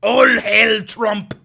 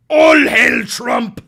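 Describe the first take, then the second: First: Mock zealot chant. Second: Slow, very loud crying shout of a zealot; mock rally scream, slow and huge; hammed-up fanatic hail, louder. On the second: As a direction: bellow it like a crazed cult rally.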